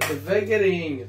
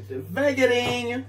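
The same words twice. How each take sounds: First: Said in the usual way. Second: Devagarinho stretched out slowly and sung higher; slowly, drawn out. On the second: Shown as a demonstration. Showing viewers how to pour it in slowly, drawn out and higher. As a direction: draw out devagarinho, lilting up high. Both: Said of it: "Slow, slow".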